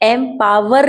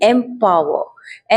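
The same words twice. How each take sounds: First: The final r sound is clearly pronounced. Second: The final r sound is left silent. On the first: The speaker calls it wrong. "एम्पावर नहीं बोल रही हूँ मैं" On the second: The speaker calls it right. "आर silent है"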